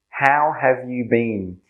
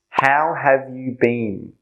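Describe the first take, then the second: No difference in how they are said.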